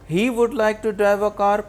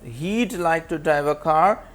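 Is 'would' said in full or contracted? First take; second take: full; contracted. First: The word would is said in full. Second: The word would is contracted onto he.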